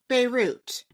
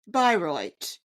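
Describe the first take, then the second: First: It sounds like the Lebanese city Beirut. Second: It does not sound like the city Beirut. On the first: The speaker calls it wrong. "Beirut as if it were in, Lemon- in Lebanon" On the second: The speaker calls it right. "this town in Germany's name is pronounced Bayreuth"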